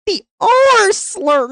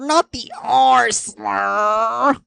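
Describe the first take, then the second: First: R slur said high and drawn out, the R stretched; exaggerated R slur. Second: Said in the usual way. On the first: Shown as a demonstration.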